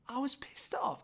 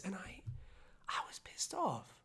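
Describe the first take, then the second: First: Said in the usual way. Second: Hushed, pressed, breathless whisper; angry whisper. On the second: Real, not acted. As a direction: whisper it like confessing anger. Whispered anger admission.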